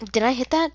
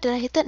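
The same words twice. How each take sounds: First: Eager high-pitched check; hopeful loud did I hit; excited high question. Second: Hopeful did I hit; excited high question. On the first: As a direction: voice jumps up hoping for a hit. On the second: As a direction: still up high hoping. Excited check of shot. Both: Real, not acted.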